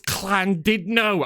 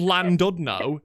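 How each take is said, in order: First: The name starts with a hissing Welsh LL sound. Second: The name starts with a plain English L sound. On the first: Locals insist on the native pronunciation. "they'll be like, it's Clandidno" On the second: An outsider says it the anglicized way. "there's not another town two miles away called Landudno"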